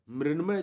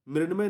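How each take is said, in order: First: मृण्मय said as "mrin-may" with dental n; wrong nasal sound. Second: मृण्मय with a retroflex ṇ; corrected nasal sound. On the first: Teacher rejecting a misspelling, मृण्मय with plain n. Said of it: "मृण्मय नहीं होता है". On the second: Teacher giving the correct word, मृण्मय with retroflex ṇ. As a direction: curl the tongue back for the ण in मृण्मय. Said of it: "बल्कि मृण्मय होता है". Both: Shown as a demonstration.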